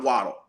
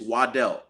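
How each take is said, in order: First: Waddle stressed on the first syllable; common pronunciation. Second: Waddell stressed on the second syllable; correct pronunciation. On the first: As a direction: say Waddle as WAH-dul. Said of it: "it's not Waddle". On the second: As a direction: say Waddell as wah-DELL. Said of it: "it's Waddell". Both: Shown as a demonstration.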